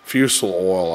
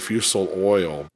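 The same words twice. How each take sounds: First: It is said in a Southern Appalachian accent. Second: It is said in a neutral, standard accent.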